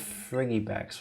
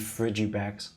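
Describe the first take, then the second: First: The g is a hard g sound. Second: The g is soft, as in 'frigid'.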